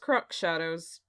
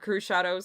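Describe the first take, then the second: First: The first word ends with a ks sound. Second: The first word has no ks sound. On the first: This is how the speaker wrongly assumed it was said. The speaker calls it wrong. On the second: This is how the name is actually said. The speaker calls it right.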